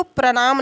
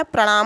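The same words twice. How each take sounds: First: प्रणाम with plain dental n, pranaam; wrong form. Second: प्रणाम with curled-tongue n; correct form. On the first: Teacher rejecting the misspelt greeting, wrong form. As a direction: soften प्रणाम to an ordinary n. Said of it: "प्रणाम नहीं होता है". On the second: Teacher giving students the proper greeting word, correct form. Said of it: "प्रणाम होता है". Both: Shown as a demonstration.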